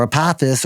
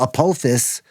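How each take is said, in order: First: Apophis with an open "ah" in the middle; alternative pronunciation. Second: Apophis with a long "oh" in the middle; first pronunciation attempt. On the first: Vlogger offering another way to say it, alternative pronunciation. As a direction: say Apophis as uh-PAH-fis. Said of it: "or however you say it". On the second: Vlogger naming the asteroid, unsure pronunciation. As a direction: say Apophis as uh-POH-fis. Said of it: "or Apophis or however you say it". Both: Shown as a demonstration.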